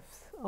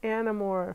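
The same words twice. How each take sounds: First: Much softer, a touch higher repeat of Animorphs; soft echo. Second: Said in the usual way. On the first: Real, not acted. To her daughter, repeating the book title, soft echo. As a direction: echo Animorphs under the breath. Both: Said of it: "what are you reading".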